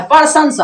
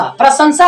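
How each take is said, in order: First: प्रशंसा turned into "parsansa"; students' mispronunciation. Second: प्रशंसा with "pra" at the start; correct pronunciation. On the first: Retold or imitated. Teacher repeats students' error, mispronounced word. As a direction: start प्रशंसा with "par", not "pra". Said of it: "प्रशंसा बोलता है". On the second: Shown as a demonstration. Teacher contrasts it with students' form, correct pronunciation. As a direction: join p and r in प्रशंसा. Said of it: "प्रशंसा नहीं".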